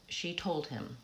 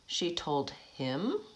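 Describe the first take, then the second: First: It is said as a plain statement. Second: It is said as a question. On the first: It reports a fact. "I said the statement" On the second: It asks whether this happened. "I asked a question"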